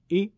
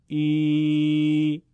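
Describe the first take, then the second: First: Said in the usual way. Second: ای held long and sung out, louder; ای کشیده; long drawn ee. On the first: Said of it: "با صدای کوتاه کسره بخونید". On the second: Shown as a demonstration. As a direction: stretch ای into a long chanted ee. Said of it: "با صدای کشیدهٔ ای بخوانید".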